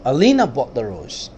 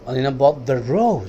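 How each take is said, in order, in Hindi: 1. Stress शब्द Alina पर है। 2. स्ट्रेस शब्द rose पर है। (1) "आयशा नहीं, अलीना ने खरीदा।" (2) "रोज पे स्ट्रेस दिया।"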